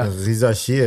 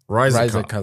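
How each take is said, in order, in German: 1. Der Name wird französisch ausgesprochen. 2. Der Name wird amerikanisch ausgesprochen. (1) "Er ist ja Franzose. ... Risacher hätte ich" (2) "Aber amerikanisch werden die Risacher sagen"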